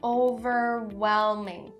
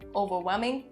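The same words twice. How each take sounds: First: The L sound in the middle is clear. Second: The L sound in the middle is dropped. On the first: The speaker calls it right. "Make sure that it is really clear" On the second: The speaker calls it wrong. "Don't skip it or drop it. Don't say overwhelming, overwhelming. No, that's not correct"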